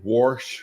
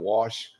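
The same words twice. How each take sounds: First: The word is said with an added r sound. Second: The word is said without any r sound. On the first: "he put an R in all kind of words where they don't have an R, like it'd say" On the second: "instead of"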